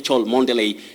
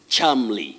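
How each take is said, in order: First: The name is said in four syllables. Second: The name is said in two syllables. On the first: The speaker calls it wrong. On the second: The speaker calls it right. "the pronunciation of that name is Chamley"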